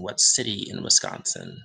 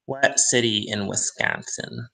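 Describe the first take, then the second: First: Said in the usual way. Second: Lightly put-on Wisconsin accent. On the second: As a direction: flatten the vowel in Wisconsin like a Midwesterner. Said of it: "I know they don't talk like this".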